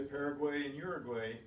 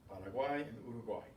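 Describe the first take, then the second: First: Paraguay and Uruguay with English vowels, ending in -gway; Paraguay and Uruguay said the American English way; English pronunciation. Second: Paraguay and Uruguay with Spanish vowels, ending in -gwai; brisk Spanish Paraguay and Uruguay; Spanish pronunciation. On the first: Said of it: "in English we say". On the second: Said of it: "it's not in Spanish". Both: Shown as a demonstration.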